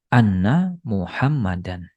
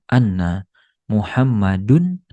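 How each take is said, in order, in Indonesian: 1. Nama itu diakhiri bunyi -an. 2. Nama itu diakhiri bunyi -un. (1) "Jadi menjadi anna Muhammadan"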